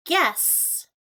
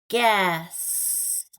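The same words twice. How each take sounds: First: "Guess" with the g stretched out and falling; hard g sound. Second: Said in the usual way. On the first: Shown as a demonstration.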